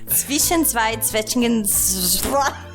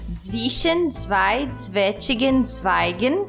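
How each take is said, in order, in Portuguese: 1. A frase é dita mais rápido. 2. A frase é dita mais devagar.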